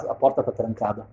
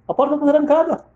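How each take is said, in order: First: Said in the usual way. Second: High-pitched disbelief; shocked repeat. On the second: Retold or imitated. Wife finding herself locked out, shocked. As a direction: repeat it high, stunned by the fact.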